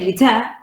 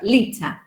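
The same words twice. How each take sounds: First: The stress is on the second syllable. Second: The stress is on the first syllable. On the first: The speaker calls it wrong. "You don't say liter" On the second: The speaker calls it right. "the stress sound is li and not te"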